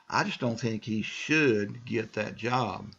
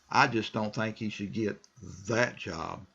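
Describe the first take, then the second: First: The word should carries the stress. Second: The word that carries the stress. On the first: He is perhaps not qualified for that job. "That could be one way of looking at should" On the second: He would suit another job better. "now I'm stressing that"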